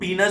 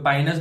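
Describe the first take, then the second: First: The first vowel sounds like 'ee'. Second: The first vowel sounds like 'eye'. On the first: Some people say it this way, but it sounds like another word. The speaker calls it wrong. "कुछ लोग पीनस बोलते हैं" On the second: Some people say it this way. The speaker calls it right. "कुछ लोग पाइनस बोलते हैं"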